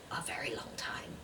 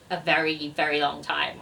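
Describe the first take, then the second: First: Hushed, voiceless confession; whisper. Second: "very, very" stressed, in a low voice; emphatic repetition. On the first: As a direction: whisper it as a sheepish aside. Guilty aside on borrowed book. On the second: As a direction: say it aloud, leaning on "very, very". Repeats the whispered admission aloud. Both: Real, not acted.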